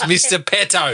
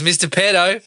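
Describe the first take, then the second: First: The T in the name is crisp and hard. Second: The T in the name sounds soft, like D. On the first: The speaker calls it right. "It's a fucking hard double T" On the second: The speaker calls it wrong. "running the T's together"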